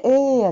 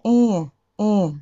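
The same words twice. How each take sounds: First: えーや from the mouth, no nasal. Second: えーや through the nose; nasal えーや. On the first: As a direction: oral えーや. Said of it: "えーやじゃなくて". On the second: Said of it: "鼻で". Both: Shown as a demonstration.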